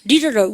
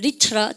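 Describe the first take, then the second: First: The middle t is a soft American flap. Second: The middle t is a clear British t.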